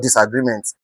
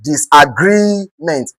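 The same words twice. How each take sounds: First: Disagreement said low and soft, GREE left short; quiet, lower disagreement with no weight on GREE; wrongly stressed disagreement. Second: Disagreement, slow, with GREE drawn out; slow disagreement, weight on the stem GREE; stress on GREE. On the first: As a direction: rush through disagreement without lengthening GREE. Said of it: "not disagreement". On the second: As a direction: hold the GREE in disagreement, then drop to ment. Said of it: "consider the word, the stem". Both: Shown as a demonstration.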